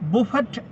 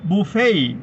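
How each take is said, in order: First: The final t is clearly sounded. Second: The final t is silent. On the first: The speaker calls it wrong. "ബുഫറ്റ് എന്നല്ല വായിക്കേണ്ടത്" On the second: The speaker calls it right. "ഇവിടെ അവസാനം വരുന്ന ടി silent ആണ്"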